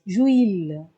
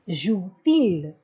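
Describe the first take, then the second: First: The vowels run together with no t sound. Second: A t sound links the verb and pronoun. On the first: The speaker calls it wrong. "If we don't add it, it will sound like this" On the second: The speaker calls it right. "we are adding a T in between"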